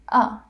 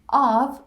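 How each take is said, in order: First: The word is reduced to a weak form. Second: The word is said in its full form. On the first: "all the way reduced to the schwa" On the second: "of becomes a"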